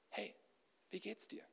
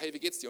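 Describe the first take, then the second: First: The question sounds warm and genuinely interested. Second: The question sounds quick and casually dismissive. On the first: The asker really wants to hear the answer. The speaker calls it right. "Stelle Fragen" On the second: The asker does not want to hear the answer. The speaker calls it wrong. "nicht so eine Begrüßung"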